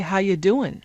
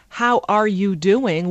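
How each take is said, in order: First: The words are reduced and run together. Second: Every word is pronounced fully and clearly. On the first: "we say" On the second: "instead of"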